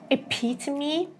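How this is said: The T in the middle is a crisp T. "the British version"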